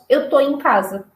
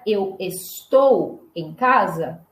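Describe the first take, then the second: First: The verb is shortened to its last syllable. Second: The verb is said in its full form. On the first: "nós brasileiros falamos eu tô em casa" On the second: "Ao invés de falar eu estou em casa"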